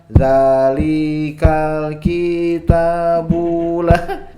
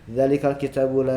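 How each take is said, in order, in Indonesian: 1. Semua vokal panjang. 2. Semua vokal pendek. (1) "Kalau semuanya dua harokat" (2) "itu semuanya satu harokat"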